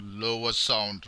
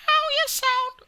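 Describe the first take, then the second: First: Slow, low-pitched demo. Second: Loud, very high mock female voice. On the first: Teacher contrasting lower sound for students, low slow pitch. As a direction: drag it out down low. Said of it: "and you say lower sound". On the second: Teacher demonstrating a female voice's higher sound, very high pitch. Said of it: "the female voice is higher sound". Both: Shown as a demonstration.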